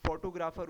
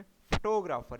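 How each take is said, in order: First: फोटोग्राफर said the Urdu way, even weight. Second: फोटोग्राफर with stress on TO, pho-TO-grapher; English फोटोग्राफर, hit TO. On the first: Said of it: "Urdu में पढ़ते हैं". (उर्दू अंदाज़ में) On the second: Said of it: "टो पे जो है ज़्यादा stress". (टो पर ज़्यादा ज़ोर) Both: Shown as a demonstration.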